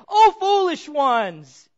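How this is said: The words sound sharp and scolding. The speaker is rebuking the listeners.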